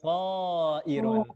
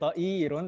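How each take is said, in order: First: The first syllable has the long vowel. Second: The second syllable has the long vowel. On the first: The speaker calls it right. "to-nya saja loh Om ya, yang panjang" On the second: The speaker calls it wrong. "to-nya pendek jadi uh, hamzahnya yang panjang, bukan ta'irun"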